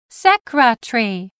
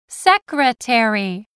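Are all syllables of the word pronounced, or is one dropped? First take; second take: one dropped; all pronounced. First: One syllable of the word is reduced or dropped. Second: Every syllable of the word is pronounced fully. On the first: This is the British way of saying it. "as the British do" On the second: This is the American way of saying it. "Americans say secretary"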